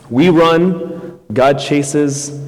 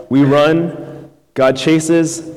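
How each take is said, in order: Both takes have the same delivery.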